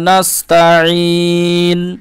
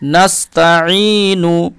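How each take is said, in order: First: The word ends on the n consonant. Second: The word ends with a short u vowel.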